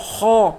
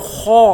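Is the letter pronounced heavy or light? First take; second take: heavy; heavy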